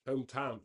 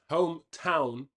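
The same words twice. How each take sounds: First: Said in the usual way. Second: Hometown said again, louder with a firm stress; emphatic repeat. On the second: Shown as a demonstration. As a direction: punch the word Hometown on the repeat.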